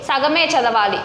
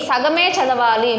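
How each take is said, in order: The two takes are said the same way.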